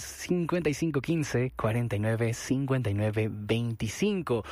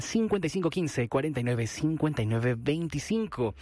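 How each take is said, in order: First: Phone number read out more slowly; measured dictation, last digits drawn out; slower repeat. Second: Phone number read briskly; quick phone number. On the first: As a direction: spell out the digits unhurriedly for listeners. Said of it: "Si lo dije muy rápido, ahí les va otra vez". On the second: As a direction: rattle off the digits a bit quickly. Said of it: "Si lo dije muy rápido". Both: Real, not acted.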